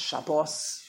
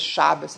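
First: "Shabbos" with weight on the last syllable; Hebrew pronunciation. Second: "Shabbos" stressed on the first syllable; Yiddish pronunciation. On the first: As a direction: say "Shabbos" as sha-BOS. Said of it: "putting an emphasis on the last". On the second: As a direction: say "Shabbos" as SHA-bbus. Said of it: "There's no such word as". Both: Shown as a demonstration.

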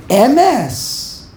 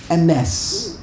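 First: Emes with a heavy, drawn first syllable; wrong first-syllable stress. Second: Emes with a quick E and weight on MES; proper final stress. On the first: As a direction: lean hard on E in Emes. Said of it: "the wrong way". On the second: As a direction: skim the first vowel of Emes, land on the end. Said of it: "that's why it's really M S". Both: Shown as a demonstration.

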